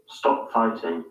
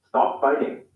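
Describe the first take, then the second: First: "Stop fighting" with rounded o and hard t; British English, crisp t; British accent. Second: "Stop fighting" with open unrounded o and tapped t; American English, flap the t; American accent. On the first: Teacher giving the British version. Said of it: "In the U K". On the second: Teacher giving the American version. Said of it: "In the U S". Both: Shown as a demonstration.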